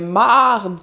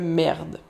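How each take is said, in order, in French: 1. La voyelle est un A ouvert. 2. La voyelle est un son E. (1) "le E devant un R a tendance à se changer en A" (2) "Merde, c'est trop propre"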